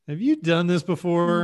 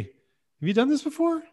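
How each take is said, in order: First: The question sounds snide and insulting. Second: The question sounds polite and neutral. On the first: The speaker is mocking the other person's skill. The speaker calls it wrong. "you put a little stank on it. You're like, then it's just an insult" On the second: The speaker is simply asking about experience. The speaker calls it right. "It is a very polite question"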